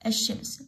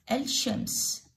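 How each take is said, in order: First: الشمس with no L and a doubled sh; silent lam. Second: الشمس spelt out with an audible L before the sh; sounded lam. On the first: Teacher corrects the reading for pupils, lam silent. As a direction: say الشمس as "ash-shams". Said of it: "لا، اللام ما تلفظ". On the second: Teacher reads the written word, lam sounded. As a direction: say الشمس as "al-shams". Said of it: "الشين اللفظة". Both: Shown as a demonstration.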